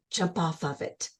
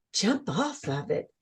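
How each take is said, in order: First: Soft, low voice giving a command; a quiet voice telling her to jump; inner voice. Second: Soft, stunned question; mild gasp of disbelief at the order; shocked disbelief. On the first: A voice in her vision quietly commanding the jump. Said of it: "there was a voice that says". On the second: Speaker recalling her stunned reply to the inner voice. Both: Retold or imitated.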